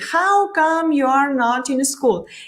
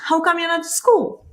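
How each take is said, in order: First: It is said slowly, every word separate. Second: It is said fast, with words run together.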